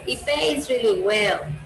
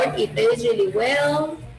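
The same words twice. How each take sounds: First: The voice falls at the end. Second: The voice rises at the end. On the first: The idea is finished. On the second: There is more to say.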